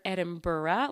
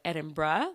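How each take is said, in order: First: Edinburgh drawn out as "Edin-bur-ra"; fuller pronunciation. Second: Edinburgh shortened to "Edin-bra"; quicker pronunciation. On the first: Host sharing a heard version of Edinburgh, slower "Edin-bur-ra". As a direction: give Edinburgh all its syllables, ending "burra". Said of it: "I've heard Edinburgh". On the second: Host comparing versions of Edinburgh, said as quick "Edin-bruh". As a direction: squeeze the end of Edinburgh into "bruh". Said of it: "just a quicker way of saying Edinburgh". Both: Shown as a demonstration.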